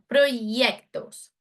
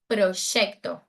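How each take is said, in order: First: The y is pronounced like an English y. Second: The y is pronounced like an English sh. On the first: This is how many Latin American countries say it. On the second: This is how Argentina and Uruguay say it. "somente Argentina e Uruguai falam com sh"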